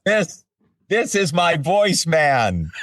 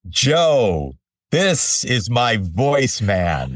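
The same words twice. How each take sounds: First: Higher, slow, beaming repeat of the introduction; imitating Morimoto, higher. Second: Slow, proud chef introducing his voice man; lightly voiced chef, savoring each word; imitating Morimoto. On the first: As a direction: lift it higher the second time, still slow and proud. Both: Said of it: "he said".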